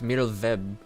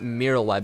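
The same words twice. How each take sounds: First: The last syllable starts with a V sound. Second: The last syllable starts with a W sound. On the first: The speaker calls it right. "Like the W makes a V sound for some reason" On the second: The speaker calls it wrong. "It's not"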